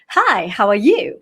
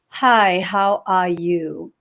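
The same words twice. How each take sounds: First: It is said with a lively rhythm. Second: It is said flatly, without rhythm.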